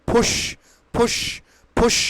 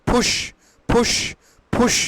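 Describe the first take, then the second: The two takes are said the same way.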